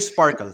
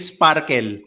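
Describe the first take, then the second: First: The P and R sound soft. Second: The P and R sound hard. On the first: The speaker calls it wrong. "Don't say sparkle" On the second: The speaker calls it right. "Kailangan matigas yung P tsaka R mo"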